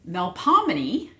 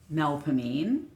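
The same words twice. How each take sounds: First: It is said the original, intended way. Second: It is said the local New Orleans way.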